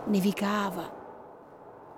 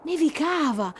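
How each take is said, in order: First: Very slow and softer; hushed, drawn-out wonder. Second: Nevicava lifted higher, in delight; bright wonder. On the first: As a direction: stretch the word in awe. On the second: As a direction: call out the snowfall happily. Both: Shown as a demonstration.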